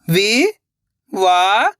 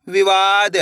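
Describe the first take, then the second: First: Very slow, stretched syllables, rising at the end; sounding out syllables. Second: Said in the usual way. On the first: Shown as a demonstration. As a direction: sound it out slowly, letter by letter. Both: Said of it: "एक एक अक्षर का उच्चारण करके".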